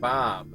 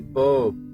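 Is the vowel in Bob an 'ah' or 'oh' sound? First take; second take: ah; oh. First: The vowel is an open 'ah' sound. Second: The vowel is a rounded 'oh' sound. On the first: "They don't give it an ah sound, like in Bob" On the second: "They would say Bob"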